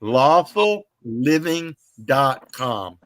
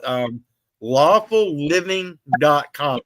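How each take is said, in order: First: Slow, deliberate web address; repeating the site name slowly to plug it. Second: Slow, spelled-out web address; plugging a friend's website slowly; slow plug. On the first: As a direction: say "Lawful living dot com" slowly word by word. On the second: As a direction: say the site name slowly and clearly. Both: Shown as a demonstration. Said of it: "I'm gonna go ahead and plug her".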